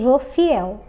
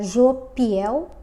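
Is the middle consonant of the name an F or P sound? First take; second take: F; P. First: The middle consonant is an f sound. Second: The middle consonant is a p sound. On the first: The speaker calls it right. "Como está com pH, eu pronuncio Jofiel" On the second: The speaker calls it wrong. "se você quiser pronunciar Jopiel, pode"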